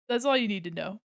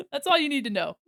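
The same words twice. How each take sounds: First: Said in the usual way. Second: Laughing. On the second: Real, not acted. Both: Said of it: "repeated line".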